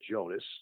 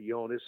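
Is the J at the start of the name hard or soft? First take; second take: hard; soft. First: The name begins with a hard J sound. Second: The name begins with a soft J sound. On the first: "instead of Jonas" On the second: "two of the guys have soft J's, like a Jonas"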